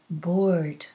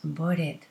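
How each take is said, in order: First: The word is said as one syllable. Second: The word has an extra syllable at the end. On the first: The speaker calls it right. "It's bored" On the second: The speaker calls it wrong. "It's not bored"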